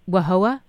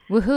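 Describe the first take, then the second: First: The name is said with a wah-hoa sound. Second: The name is said with a woo-hoo sound. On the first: The speaker calls it wrong. "It's pronounced Wahoa" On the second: The speaker calls it right. "the local people said it's Woohoo Island"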